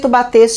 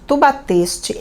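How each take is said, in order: First: It is said at a faster pace. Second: It is said at a slower pace.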